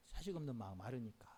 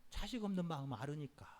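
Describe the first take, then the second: First: 자식 없는 마음 아르니까 repeated much softer and lower; soft echo. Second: Said in the usual way. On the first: Real, not acted. Preacher repeats the reason to the congregation, quietly. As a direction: let it sink in quietly.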